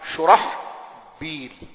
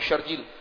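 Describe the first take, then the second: First: The name is said with h and b, three syllables. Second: The name is said with a j sound, two syllables. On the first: The speaker calls it right. "یہ نام ہوتا ہے شرحبیل" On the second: The speaker calls it wrong. "بعض دوست اس کو پڑھتے ہیں شرجیل"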